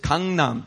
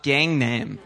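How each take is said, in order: First: It is pronounced the Korean way. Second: It is pronounced the English way. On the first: The speaker calls it right. "it's Gangnam" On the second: The speaker calls it wrong. "not Gangnam"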